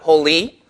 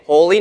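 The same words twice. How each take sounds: First: The stress is on the second syllable. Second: The stress is on the first syllable. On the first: The speaker calls it wrong. "not holy" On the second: The speaker calls it right. "like we would say it"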